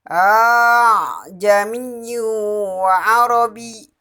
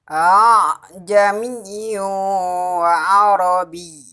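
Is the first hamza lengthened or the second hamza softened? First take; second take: first lengthened; second softened. First: The opening hamza is drawn out long. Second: The second hamza is softened, barely stopped. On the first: "Yang pertama dipanjangkan hamzah yang pertama" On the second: "Yang kedua meringankan bunyi hamzah yang kedua"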